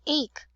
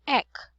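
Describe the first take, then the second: First: The vowel is a long 'ay' sound. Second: The vowel is a short 'eh' sound. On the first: The speaker calls it wrong. "Not ache" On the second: The speaker calls it right.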